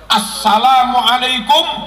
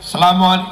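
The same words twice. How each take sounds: First: The opening is a clear 'as' joined to 'sa'. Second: The opening sounds like 'selam', without a clear 'as'. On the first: The speaker calls it right. "bacanya harus assalamualaikum warahmatullahi" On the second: The speaker calls it wrong. "nggak sah itu"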